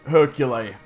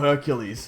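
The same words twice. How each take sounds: First: The final S sound is left silent. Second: The final S sound is clearly pronounced. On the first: "had a silent S in his name, pronouncing it Hercules" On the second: "not Hercules"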